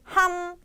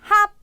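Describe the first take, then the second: First: The syllable ends with an m sound. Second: The syllable ends with a p sound. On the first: The speaker calls it right. "tapi ham" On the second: The speaker calls it wrong. "bukannya hap"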